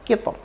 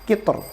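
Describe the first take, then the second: The two takes are said the same way.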